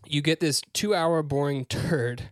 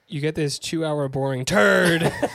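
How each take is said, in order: First: The sentence is read at a calm, even volume. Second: The sentence is read loudly, with strong emphasis. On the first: The speaker calls it wrong. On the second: The speaker calls it right.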